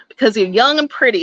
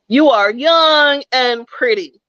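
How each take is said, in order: First: Said in the usual way. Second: Put-on "You are young and pretty" slowed, each word weighed; slow emphatic repeat. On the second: Shown as a demonstration. Speaker presses the point to young listeners, slow emphatic repeat.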